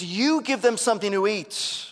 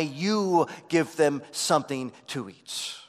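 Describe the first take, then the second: First: You hit higher and louder, falling after; stress on you. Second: You punched firm and falling; stress on you. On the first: Preacher repeating the verse to stress you. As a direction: press hard on you. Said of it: "is emphatic". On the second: Preacher reading the verse, stressing You. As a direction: lean on the word You as a command. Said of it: "the "you" is emphatic". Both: Shown as a demonstration.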